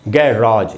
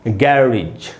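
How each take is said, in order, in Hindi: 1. यह शब्द लंबी 'rahzh' ध्वनि पर खत्म होता है। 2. यह शब्द छोटी 'ridge' ध्वनि पर खत्म होता है। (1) "इसका एक उच्चारण है" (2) "तो इसको हम बोलेंगे गैरेज"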